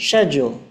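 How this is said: It is said with a British accent.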